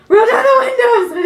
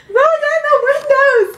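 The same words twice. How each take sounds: First: Loud high yell breaking into a laugh; laughing panicked scream. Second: Very high loud yell cracking into laughter; laugh-cry panicked scream. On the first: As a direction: shout it like a horror movie victim. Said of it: "I screamed". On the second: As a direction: scream it while nearly crying with laughter. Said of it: "As I screamed". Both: Retold or imitated.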